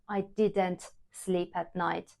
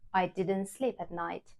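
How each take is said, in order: First: The t at the end of didn't is pronounced. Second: The t at the end of didn't is dropped. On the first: The speaker calls it wrong. "we do not pronounce the t at the end. So I don't say" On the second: The speaker calls it right. "I say"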